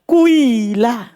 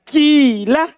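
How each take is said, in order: First: The first vowel blends u and i sounds. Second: The first vowel is a clear i sound. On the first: "sedikit suara doma, sedikit suara kasro" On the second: "kasro ini diubah jadi ya"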